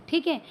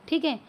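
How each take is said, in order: Both takes have the same delivery.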